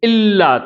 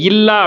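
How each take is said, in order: First: The word begins with a catch in the throat. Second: The word begins with a soft y-like glide. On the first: The speaker calls it right. "தொண்டையிலேருந்து உண்டாக்குங்க" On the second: The speaker calls it wrong. "யா போட்ட மாதிரி இல்லா அப்படின்னு வாசிக்க கூடாது"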